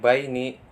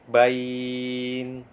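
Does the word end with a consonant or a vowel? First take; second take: vowel; consonant. First: The word ends on a final i vowel. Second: The word ends on the consonant n. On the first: The word is read in full, as written. "tulisannya baini" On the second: The reader stops at the end of the verse. "Karena wakaf maka dibaca bain"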